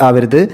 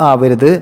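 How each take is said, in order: No difference in how they are said.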